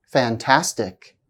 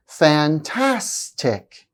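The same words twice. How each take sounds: First: Said in the usual way. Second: "Fantastic" very slow, middle syllable stretched; slow, stressed middle syllable. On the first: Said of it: "slowly the first time". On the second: Shown as a demonstration. Teacher showing stress before the ik ending, slow demo. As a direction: break up "Fantastic" slowly, leaning on the second syllable. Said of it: "I'll say the word slowly the first time".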